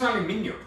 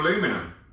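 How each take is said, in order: First: It is said the British way, with five syllables. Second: It is said the American way, with four syllables.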